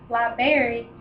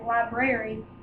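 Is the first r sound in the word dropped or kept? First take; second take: dropped; kept. First: The first r sound is left out. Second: The first r sound is clearly pronounced. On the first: The speaker calls it wrong. "when people say library instead of the actual word" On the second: The speaker calls it right. "the actual word, which is library"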